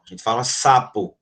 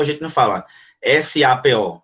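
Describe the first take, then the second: First: Said in the usual way. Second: "S A P O" said as separate letter names; spelled letter by letter. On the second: Shown as a demonstration. Teacher showing the wrong way to say sapo, spelled out. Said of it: "A gente não fala sapo".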